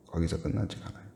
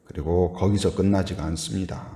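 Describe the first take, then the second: First: 끝나지가 much softer, dropped low; quiet repeat. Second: Said in the usual way. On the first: Shown as a demonstration. (조용히 낮춰 되뇌는 말투)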